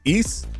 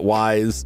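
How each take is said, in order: First: It sounds like 'eese', ending in an s sound. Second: It sounds like 'wise', with an 'eye' vowel. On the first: The speaker calls it right. "The pronunciation is Ys like geese" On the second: The speaker calls it wrong. "It's not wise"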